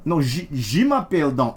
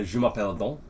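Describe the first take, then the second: First: Je m'appelle Don firmly, falling at the end; correcting French. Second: Je m'appelle Don with French vowels, rising at the end; schoolbook French. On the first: Shown as a demonstration. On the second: Pretend. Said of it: "speaking French".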